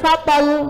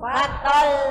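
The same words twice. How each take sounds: First: The final consonant is short and unpressed. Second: The final consonant is held and pressed. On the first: The speaker calls it wrong. "gak boleh fatal ya" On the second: The speaker calls it right. "maka bacanya ditekan"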